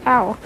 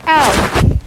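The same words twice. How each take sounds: First: Said in the usual way. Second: Louder, sharp mock "Ow" of pain. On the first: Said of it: "Andrew Garfield is like". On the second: Shocked Spider-Man yelps "Ow" after Electro's zap, loud. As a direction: yelp "Ow" like a cartoon hit. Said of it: "and he's like".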